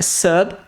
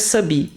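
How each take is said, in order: First: The final B ends dry with no vowel. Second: The final B is followed by an extra vowel. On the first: The speaker calls it right. "É sub, B mudo" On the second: The speaker calls it wrong. "perceba que não é sub"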